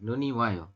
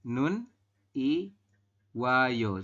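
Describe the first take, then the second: First: The final consonant carries over into the next syllable. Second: The final consonant is kept apart from the next syllable. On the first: The speaker calls it right. "Kita membacanya adalah Nuni Wayo" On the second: The speaker calls it wrong. "Bukan Nun Iwayo ya"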